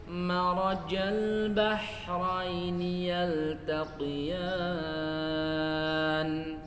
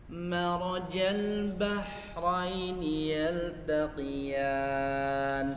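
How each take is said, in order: Both takes have the same delivery.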